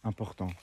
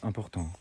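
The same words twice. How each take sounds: First: All syllables have equal force and length. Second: All syllables have equal force and length.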